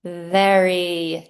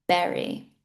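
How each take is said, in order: First: "very" with teeth on the lips for v; correct "very". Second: "very" said with b, berry; wrong form "berry". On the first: Teacher gives the correct "very" with a clear v. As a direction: bite the lip on "very". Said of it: "the correct term is". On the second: Teacher shows the mistake "berry" for very. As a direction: swap v for b. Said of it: "I said berry". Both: Shown as a demonstration.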